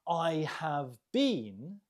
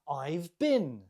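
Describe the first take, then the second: First: 'Have' is said as a full separate word. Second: 'Have' is shortened and joined to 'I'.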